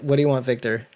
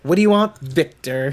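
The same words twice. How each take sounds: First: It is said in his plain, normal voice. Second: It is said in a put-on character voice.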